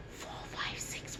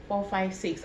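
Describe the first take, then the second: First: Soft unvoiced whisper into the ear. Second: Said in the usual way. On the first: Shown as a demonstration. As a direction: whisper the numbers close to the ear. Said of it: "I'm going to whisper in your right ear". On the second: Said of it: "What did I say?".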